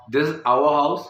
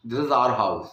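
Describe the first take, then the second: First: Our said आवर with rising end. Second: Our said short as आर. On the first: Teacher giving the first way to say our. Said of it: "जैसे अगर मैं बोलूँ". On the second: Teacher giving the second accepted our. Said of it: "दोनों ठीक है". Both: Shown as a demonstration.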